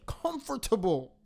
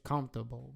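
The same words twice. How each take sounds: First: Every syllable is pronounced out fully. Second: A middle syllable is dropped or squeezed. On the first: "y'all pronounce every single, like, syllable" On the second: "We just say comfortable"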